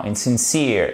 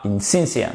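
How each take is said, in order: First: "insincere" with the stress on -cere; correct stress. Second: "insincere" stressed on the first syllable in-; wrong stress. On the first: Teacher corrects the stress for students. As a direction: put the weight on -cere of "insincere". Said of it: "l'accentuation sur cette seconde syllabe". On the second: Teacher shows students the incorrect stress. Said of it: "Non, insincere". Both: Shown as a demonstration.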